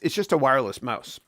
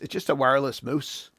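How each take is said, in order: First: Mouse is said in an American accent. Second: Mouse is said in a Canadian accent.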